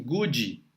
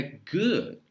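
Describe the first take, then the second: First: Good with an added ee ending, like goodee; good ending in a Brazilian ee sound; wrong good. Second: Good with an almost silent final D; good ending on a barely heard D; right good. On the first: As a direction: say good with a vowel after the D. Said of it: "É muito comum as pessoas falarem assim". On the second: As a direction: clip the D of good to almost nothing. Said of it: "Não vai sair o som do D". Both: Shown as a demonstration.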